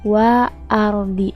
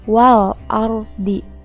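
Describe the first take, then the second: First: The L sound is left out. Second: The L sound is clearly pronounced. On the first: The speaker calls it wrong. "Bukan dibacanya" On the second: The speaker calls it right.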